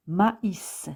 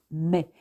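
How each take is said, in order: First: "maïs" in two slow syllables, ma-is; detached vowels. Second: "mais" as one syllable, mè; merged vowels. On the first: Teacher demonstrates the tréma, "maïs" slowly as ma-is. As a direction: split "maïs" into ma and is, sounding the s. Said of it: "l'une des voyelles est détachée dans la prononciation". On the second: Teacher gives the wrong reading, "mais" as single mè. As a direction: say "mais" as mè with silent s. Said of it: "Il ne se prononce pas". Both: Shown as a demonstration.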